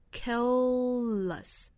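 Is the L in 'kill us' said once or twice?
twice. Both a dark L and a light L are sounded. "美音的话其实更倾向于把 light L 和 dark L 全都发一遍"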